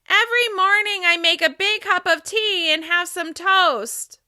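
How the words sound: The voice resonates high, at the top of the head. "Now I'm going to speak with resonance at the top of my head"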